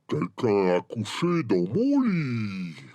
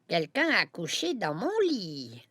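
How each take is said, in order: First: It is said in a deep, gruff voice. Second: It is said in a medium voice.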